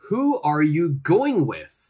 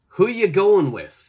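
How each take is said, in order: First: Every word is said fully and clearly. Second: 'Are you' blends together and the final G drops.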